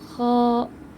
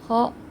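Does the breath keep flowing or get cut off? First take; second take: flowing; cut off. First: The breath keeps flowing out. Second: The breath is cut off abruptly. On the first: The speaker calls it right. "tapi kha" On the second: The speaker calls it wrong. "terputus udaranya"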